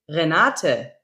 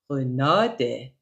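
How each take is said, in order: First: It is said in standard German pronunciation. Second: It is said in a relaxed Saxon dialect.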